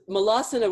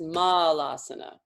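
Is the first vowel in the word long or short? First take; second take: short; long. First: The first vowel is said short. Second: The first vowel is said long. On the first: The speaker calls it wrong. "would be a short" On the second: The speaker calls it right. "They're both longs"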